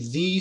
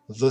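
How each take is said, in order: First: The vowel in 'the' is a full vowel. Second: The vowel in 'the' is a short schwa. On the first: The speaker calls it wrong. "I don't say the sound" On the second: The speaker calls it right. "I say the sound"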